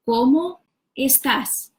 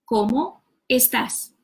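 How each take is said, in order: First: ¿Cómo estás? said slowly with stress on "Cómo"; slow drill. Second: Said in the usual way. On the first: Shown as a demonstration. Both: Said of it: "you put the words together".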